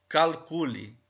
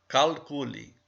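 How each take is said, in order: The two takes are said the same way.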